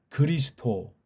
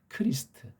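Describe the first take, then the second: First: It starts with a soft g and ends with d. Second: It starts with an aspirated k and ends with t. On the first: The speaker calls it wrong. "트를 갖다가 드라고 해버리 벌써 이게 트, 틀린 거예요" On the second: The speaker calls it right. "백번양보해서 크리스트"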